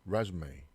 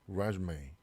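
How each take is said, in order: The two takes are said the same way.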